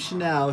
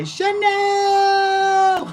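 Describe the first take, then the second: First: Said in the usual way. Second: Very high, sustained shout of Chanel; loud drawn-out yell. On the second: Acted. Calling out the name Chanel, long high shout. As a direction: scream the name on one long high note. Name then yelled as impression.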